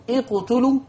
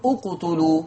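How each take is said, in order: First: اقتلوا started with i, "iqtulu", rising; اقتلوا بكسر الهمزة; kasra on hamzat al-wasl. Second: اقتلوا started with u, "uqtulu"; اقتلوا بضم الهمزة; damma on hamzat al-wasl. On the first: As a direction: open اقتلوا with an i sound. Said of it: "هتقول". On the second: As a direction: open اقتلوا with a rounded u. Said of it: "ولا تقول". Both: Shown as a demonstration.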